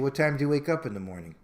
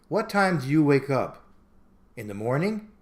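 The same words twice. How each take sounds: First: It flows as one question without a pause. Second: It breaks into two questions with a pause. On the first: The question is asked in the ordinary way. The speaker calls it right. "You usually say" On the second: The question is asked playfully, to be cute. The speaker calls it wrong. "that's not how you usually ask"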